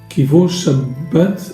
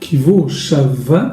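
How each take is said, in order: First: The last word has a hard b sound. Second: The last word has a soft v sound. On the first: The word names the day of rest. The speaker calls it wrong. "Beaucoup de personnes se trompent" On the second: The word is the verb meaning ceased. The speaker calls it right. "le bet qui est lu, prononcé de manière douce"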